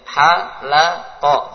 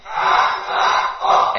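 First: "Halaqa" stretched very slowly syllable by syllable; broken up. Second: "Halaqa" chanted loud together, drawn out slowly; whole class calls out "Halaqa" slowly; group shout. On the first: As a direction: spell "Halaqa" out in slow separate beats. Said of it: "Putus-putus bacanya". ("Halaqa" dibaca putus-putus dan pelan) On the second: ("Halaqa" diserukan bersama dengan keras dan pelan) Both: Shown as a demonstration.

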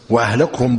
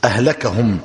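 First: وأهلكهم with a rounded u after the kaf; damma on the kaf. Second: أهلكهم with an open a after the kaf; fatha on the kaf. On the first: Teacher contrasts the two readings, وأهلكهم as wa-ahlakuhum. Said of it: "بالضم". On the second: Teacher contrasts the two readings, أهلكهم as ahlakahum. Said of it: "بالفتح". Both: Shown as a demonstration.

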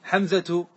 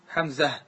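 First: حمزة said hamzatu with t and final vowel; connected form. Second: حمزة said hamzah, ending on h; pause with ha. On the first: Teacher contrasting connected form with pause, hamzatu. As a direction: pronounce حمزة ending -atu. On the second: Teacher showing pausal form on h, hamzah. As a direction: stop on حمزة with final h. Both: Shown as a demonstration. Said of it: "بالهاء".

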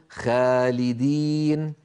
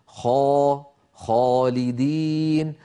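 First: "خالدين" with a thin, fronted long aa; wrongly light alif. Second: "خالدين" slow, with a dark, backed long aa; heavy alif. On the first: Teacher shows what we don't say, light alif. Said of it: "ولا نقول". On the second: Teacher repeats correct heavy alif, drawn out. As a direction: thicken and stretch "خا" in "خالدين". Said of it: "الألف التي بعدها مفخمة". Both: Shown as a demonstration.

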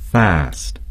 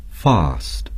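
First: "fast" with a flat short a; American fast. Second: "fast" with a long broad ah vowel; British fast. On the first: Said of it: "Americans would say". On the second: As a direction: say "fast" like "fahst". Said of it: "The British would say". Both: Shown as a demonstration.

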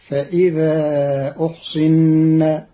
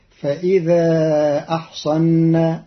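First: أحصن as uhsinna, slowly; drawn-out فإذا أحصن as uhsinna. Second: أحصن as ahsanna with fatha twice. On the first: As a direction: damma on the hamza, kasra on the saad in أحصن. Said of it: "بضم الهمز وكسر الصاد". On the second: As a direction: open the hamza and saad in أحصن. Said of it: "بفتح الهمز والصاد". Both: Shown as a demonstration.

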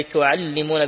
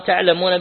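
First: تعلمون with a doubled, lengthened lam: tu-al-li-mun. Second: تعلمون with a light, single lam: ta'-la-mun. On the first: Reading the shadda variant to students, تعلمون with a doubled lam. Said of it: "بالتشديد". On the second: Reading the light variant to students, تعلمون with a single lam. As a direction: say تعلمون without doubling, short lam. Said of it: "بالتخفيف". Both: Shown as a demonstration.

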